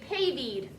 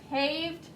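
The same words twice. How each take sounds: First: The word ends in an extra 'eed' syllable. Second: The word is said as one syllable. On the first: The speaker calls it wrong. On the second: The speaker calls it right.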